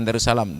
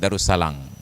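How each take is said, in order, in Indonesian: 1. Kata itu diakhiri dengan bunyi m. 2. Kata itu diakhiri dengan bunyi ng. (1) "bukan Darussalam" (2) "Hanya di Sibreh yang N itu berjanji ganti menjadi nge"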